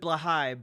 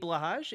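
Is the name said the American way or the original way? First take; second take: original; American. First: The name is said with its original pronunciation. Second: The name is said in an Americanized way. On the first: "apparently you're supposed to pronounce it Blahai" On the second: "I'm not doing that. I'm an American"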